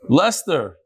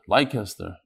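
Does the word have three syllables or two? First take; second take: two; three. First: It is said as two syllables, like Lester. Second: It is read as spelled, with three syllables. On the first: The speaker calls it right. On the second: The speaker calls it wrong.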